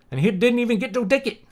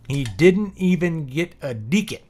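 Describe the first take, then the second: First: Scottish accent. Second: Said in the usual way. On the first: Shown as a demonstration.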